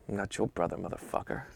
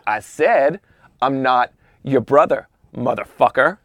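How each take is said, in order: First: Muttered. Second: Firm, full-voiced and deliberate challenge; confrontational repeat. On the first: Retold or imitated. Seething golfer answering O J's greeting, muttered. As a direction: mutter the insult under your breath. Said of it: "the guy mutters". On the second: Golfer nose to nose with O J, deliberate challenge. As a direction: repeat it out loud, spacing out each phrase.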